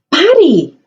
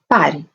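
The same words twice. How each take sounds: First: It is said forcefully, as an exclamation. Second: It is said calmly, without force.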